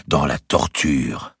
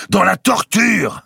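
First: Very slow, drawn-out repeat; echo. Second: High, loud, drawn-out cry; defiant retort. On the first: Tabernacle repeats the grand master's retort, echo. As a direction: let each word hang like an echo. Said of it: "répéta le tabernacle". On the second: Grand master answers the heresy charge, defiant retort. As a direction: throw it back, stretching the words. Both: A narrator's reading.

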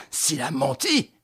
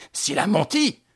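First: Said in the usual way. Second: Louder exclamation. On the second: A narrator's reading. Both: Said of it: "s'écria Lupin".

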